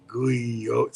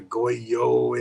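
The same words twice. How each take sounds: First: "Guyo" with GOO-ee in the first syllable; second guess at the word, "Guyo"; alternate pronunciation. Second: "goyo" with GOY in the first syllable; unsure attempt at "goyo"; alternate pronunciation. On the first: Retold or imitated. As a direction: try "Guyo" opening on "gooey". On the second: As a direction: sound out "goyo" slowly, opening on "goy".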